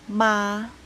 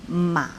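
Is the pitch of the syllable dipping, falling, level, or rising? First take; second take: level; dipping. First: The pitch stays high and level. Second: The pitch dips low, then bends up. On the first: "Premier ton, c'est le ton O, assez élevé dans la voix et égal" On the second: "Troisième ton, c'est le ton bas, en creux"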